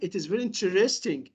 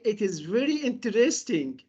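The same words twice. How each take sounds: First: The t in interesting sounds like ch. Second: The t in interesting is a clear t. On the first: "But in American" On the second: "So in British English, they say"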